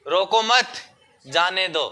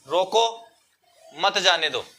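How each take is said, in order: First: रोको मत run together, a pause, then जाने दो; pause after मत. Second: रोको, then a comma pause before मत जाने दो; pause after रोको. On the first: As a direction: break after मत, before जाने दो. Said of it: "इसी अल्प विराम को यहाँ लगा दो". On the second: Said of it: "मैंने यहाँ अल्प विराम लगा दिया". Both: Shown as a demonstration.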